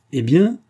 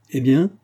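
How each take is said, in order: First: Louder, higher, foot-stamping challenge; louder impatient demand. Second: Short, loud, high impatient challenge; curt demand. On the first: Mistress stamping her foot at the nanny, angrily. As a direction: repeat it harder, losing patience. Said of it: "répéta madame Dournoff en frappant du pied". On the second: Mistress pressing the motionless nanny, curtly. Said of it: "d'une voix plus brève encore". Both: A narrator's reading.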